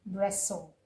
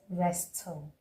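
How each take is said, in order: First: The t sound is left silent. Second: The t sound is pronounced. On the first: The speaker calls it right. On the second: The speaker calls it wrong.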